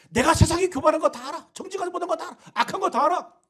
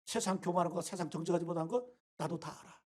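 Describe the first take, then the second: First: Higher, louder declaring "다 알아"; God's loud reply. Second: Softer, lower saying "다 알아"; quiet God voice. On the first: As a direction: call out "다 알아" high and loud for God. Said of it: "그러나 그게 뭐 어쨌다는 거야?". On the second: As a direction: murmur "나도 다 알아" low and soft. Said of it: "하나님이 바로 그걸 지적하고 있는 거예요". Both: Retold or imitated.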